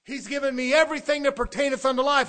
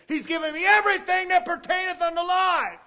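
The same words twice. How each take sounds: First: Said in the usual way. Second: Preacher's shout. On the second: Acted. Repeated line, now shouted higher.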